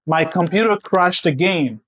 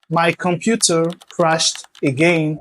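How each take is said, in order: First: The T in computer is a soft flap. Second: The T in computer is a crisp T. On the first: The speaker calls it right. "Vous allez plutôt dire" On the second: The speaker calls it wrong. "au lieu de dire"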